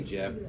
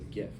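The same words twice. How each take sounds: First: It begins with a soft J sound. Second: It begins with a hard G sound. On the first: The speaker calls it wrong. "I don't say GIF. A, that's peanut butter" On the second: The speaker calls it right. "the G stands for graphic, so that's why I say GIF"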